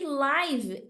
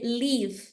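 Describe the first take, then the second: First: The vowel is an 'eye' sound. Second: The vowel is a short 'i' sound. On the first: It means happening in real time. "live é aquilo que está acontecendo no momento" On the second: It means to live or reside. "live é o viver"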